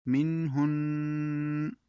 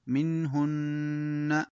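First: منهن stopped slowly, ن hummed long; ghunna at the stop. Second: منهن slow, the doubled ن held humming in the nose; nasal ghunna. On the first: Teacher shows ghunna when stopping. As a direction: end منهن on a long nasal ن. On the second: Teacher demonstrates ghunna on the doubled nun. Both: Shown as a demonstration. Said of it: "الوقف على النون والميم المشددتين بالغنة".

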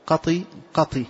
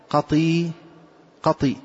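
First: "قطي" said with only a short i after the ط; "قطي" as qati, final i kept short; short kasra ending. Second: "قطي" with the final i drawn into a long ya; "قطي" as qatee, long final vowel; lengthened kasra. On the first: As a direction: end each "قطي" on a brief kasra, not a long ya. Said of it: "ورويت بالكسر". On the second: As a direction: stretch the end of "قطي" into a full ee. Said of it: "بإشباع الكسر حتى صارت ياء". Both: Shown as a demonstration.

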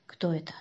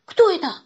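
First: Low, soft wary question; hushed question. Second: High, loud startled question; frightened. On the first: Shurik asks Kostya about the stranger, hushed. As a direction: ask under your breath. Boys whispering in cinema. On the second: Boy bumps noses in the dark, frightened. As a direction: jump as you ask it. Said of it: "испугался он". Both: A narrator's reading.

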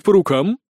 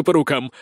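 First: "по рукам" raised and lifting at the end; checking question. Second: "по рукам" falling, settled and certain; glad confirmation. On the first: Aristocrat checks the deal, "по рукам" as a rising question. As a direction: ask "по рукам" as a question seeking confirmation. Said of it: "уточнил Бакке". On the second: Sergeant seals the deal, "по рукам" as a falling confirmation. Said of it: "радостно ответил Сисюля". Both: Acted.

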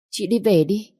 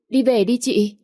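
First: Higher pleading "Chị đi về đi"; coaxing urging. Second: Pushier urging. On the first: Stepsister urges her sister to go home, coaxing plea. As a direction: nudge her out gently but insistently. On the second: Stepsister presses her sister to leave, insistent raised plea. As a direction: push her harder to leave now. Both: Acted.

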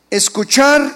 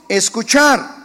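The two takes are said the same way.

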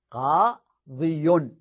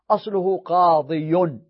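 First: قاضي stretched very slowly, every sound and the final ي held; drawn-out demo of the original form. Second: قاضي said slowly with the final ي fully pronounced; slow demo of the original form. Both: Shown as a demonstration.

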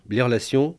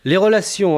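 First: Said in the usual way. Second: Les relations said higher and louder, falling as a title; Les relations announced like a chapter heading, firm fall on relations. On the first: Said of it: "list of four categories". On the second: Shown as a demonstration.

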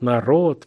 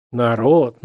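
First: Mild mocking echo, rising; mocking mimic. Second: Mild mocking echo, falling; mocking mimic. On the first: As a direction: parrot "народ" again with a rising, teasing end. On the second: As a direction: lightly parrot the word "Народ" with a falling end. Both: A narrator's reading. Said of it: "передразнил высокий негодующий голос".

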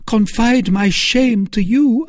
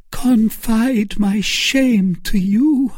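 First: High, loud repeat of the plea; repeated shamed cry. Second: High, slow cry of shame; anguished cry. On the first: Milady repeating her shamed cry to Felton, high and loud. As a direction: press the shame again. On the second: Milady crying out to Felton in shame, high and slow. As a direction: cry out in wounded modesty. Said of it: "cried Milady". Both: A narrator's reading.

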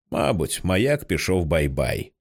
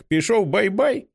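First: Lower, slow, gentle "бай-бай"; sad reply. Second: Put-on high, slow child's voice, rising on "бай-бай"; a toddler asking sweetly; child's question. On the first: Father sadly answers his little son, low and slow. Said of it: "сумно відповідає Джек". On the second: Little son asks if the lighthouse went to sleep, high and slow. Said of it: "запитує Джек". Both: A narrator's reading.

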